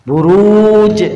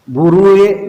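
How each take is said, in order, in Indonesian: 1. Kata itu diakhiri dengan bunyi 'j'. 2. Kata itu diakhiri dengan bunyi vokal. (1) "bukan burue" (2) "Padang misalnya"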